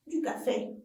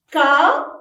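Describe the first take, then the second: First: Said in the usual way. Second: "Café" split loudly into Ca, then fé; teacher's loud, separated "Ca... fé"; syllable by syllable. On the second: Shown as a demonstration. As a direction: clap out "Café" with a clear gap between syllables. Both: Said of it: "Frappez-le en syllabe".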